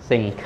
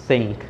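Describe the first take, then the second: The two takes are said the same way.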